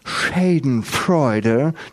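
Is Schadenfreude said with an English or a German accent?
English. The word is said with an English accent. The speaker calls it wrong. "das heißt nicht Schadenfreude"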